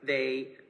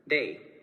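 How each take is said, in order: First: It begins with a buzzing th sound. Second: It begins with a crisp d-like stop. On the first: "words like they" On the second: "would be pronounced as"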